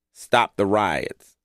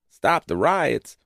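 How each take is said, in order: First: Said in the usual way. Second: Higher, drawn-out disbelieving repeat; stretched, high-pitched disbelief; incredulous echo. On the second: Retold or imitated. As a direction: throw it back slowly as an absurd request. Echoes plea back in disbelief.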